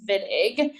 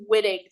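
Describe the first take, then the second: First: Wittig with the W said as a V, "Vittig"; correct pronunciation. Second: Wittig with an English W sound, as in "wit"; wrong pronunciation. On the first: Chemistry teacher showing students the right name, Wittig said with a V. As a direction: start Wittig on a V sound. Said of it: "It's pronounced Wittig". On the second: Chemistry teacher showing students the name's wrong reading, Wittig with English W. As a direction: say Wittig as spelled, starting with a W. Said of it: "It's not pronounced Wittig". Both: Shown as a demonstration.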